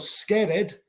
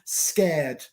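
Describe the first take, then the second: First: The ending is said as an extra syllable. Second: The ending adds no extra syllable. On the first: The speaker calls it wrong. "no pronuncio scared. Scared no existe" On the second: The speaker calls it right. "pronunciar básicamente sin el E"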